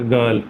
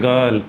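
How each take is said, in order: Both takes have the same delivery.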